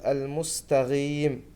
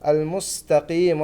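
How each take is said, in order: First: المستغيم with غين in place of قاف; wrong المستغيم; qaf turned ghain. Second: المستقيم with a clear قاف; correct qaf. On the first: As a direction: show the mistake of saying المستقيم with a غين. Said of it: "ولا نقلب القاف غين". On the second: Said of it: "المستقيم هي الصحيحة". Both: Shown as a demonstration.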